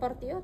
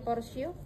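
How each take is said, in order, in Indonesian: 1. Konsonan di tengah adalah bunyi t. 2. Konsonan di tengah adalah bunyi s. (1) "bukan portio" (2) "dibacanya porsio"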